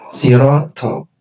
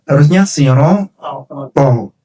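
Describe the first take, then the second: First: The t is thin with a breathy hiss. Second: The t is thick with no hiss. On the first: The speaker calls it wrong. "tidak boleh dibaca siroto" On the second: The speaker calls it right. "tanpa desis dan suaranya ada ketebalannya"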